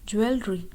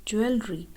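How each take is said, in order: No difference in how they are said.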